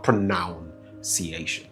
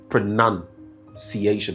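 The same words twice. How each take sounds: First: The second syllable sounds like 'noun'. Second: The second syllable sounds like 'nun'. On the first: The speaker calls it wrong. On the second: The speaker calls it right. "the proper pronunciation is"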